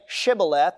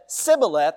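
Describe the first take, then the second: First: The word begins with an SH sound. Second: The word begins with a plain S sound. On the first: The speaker is not from that group. The speaker calls it right. "never learned to pronounce that SH sound" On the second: The speaker belongs to that group. The speaker calls it wrong. "it would come out as a plain S"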